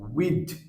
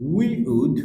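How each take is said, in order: First: It is said as one contracted syllable. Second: It is said as two full words.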